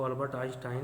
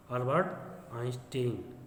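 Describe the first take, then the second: First: आइंस्टाइन with an "eye" vowel in the last syllable; Einstein ending in "-tine". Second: आइंस्टीन with a long "ee" in the last syllable; Einstein ending in "-teen". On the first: Teacher giving students the variant some use, आइंस्टाइन ending in "-tine". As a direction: say आइंस्टाइन to rhyme its ending with "fine". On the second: Teacher naming the scientist for students, आइंस्टीन ending in "-teen". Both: Shown as a demonstration. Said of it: "कुछ लोग उसको Albert आइंस्टाइन भी कहते हैं".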